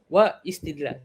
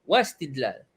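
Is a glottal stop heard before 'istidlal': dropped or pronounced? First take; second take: pronounced; dropped. First: A glottal stop is sounded before 'istidlal'. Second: The words run together without a glottal stop. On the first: The speaker calls it wrong. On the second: The speaker calls it right. "Dia tak bunyi pun hamzah tu"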